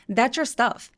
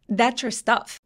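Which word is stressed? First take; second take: stuff; stuff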